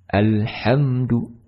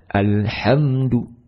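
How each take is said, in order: Both takes have the same delivery.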